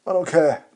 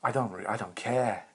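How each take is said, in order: First: Sudden high, loud shout of I don't care; yelled dismissal. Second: Said in the usual way. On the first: Acted. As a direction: blast it out, much higher and louder. Repeats line, then shouts it.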